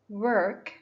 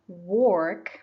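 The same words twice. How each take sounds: First: The vowel is the er sound. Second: The vowel is not the er sound. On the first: The speaker calls it right. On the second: The speaker calls it wrong.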